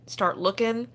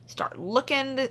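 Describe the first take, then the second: First: Said in the usual way. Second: "start looking" slower, a bit higher, leaning on "looking"; emphatic repeat. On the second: Real, not acted. Streamer urging shoppers to hunt sale tags, emphatic slow "looking".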